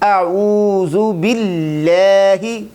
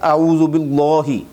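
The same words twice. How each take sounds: First: The L in billahi is light and thin. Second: The L in billahi is full and heavy. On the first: The speaker calls it right. "ज़ेर आ जाए तो फिर बारीक" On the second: The speaker calls it wrong. "वो यूँ पढ़ देते हैं"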